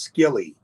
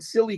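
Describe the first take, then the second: First: It begins with an sk sound. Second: It begins with a plain s sound.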